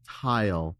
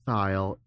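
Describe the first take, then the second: First: It begins with a plain T sound. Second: It begins with a voiced TH sound. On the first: "I would pronounce it tile, like a kitchen tile" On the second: "say thile with a voiced T-H"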